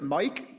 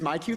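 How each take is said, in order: First: It is said as the single word Mike. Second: It is said as two separate syllables, My Q. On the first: The speaker calls it wrong. "I always look at it and try and pronounce it Mike" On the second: The speaker calls it right. "but it is My Q three"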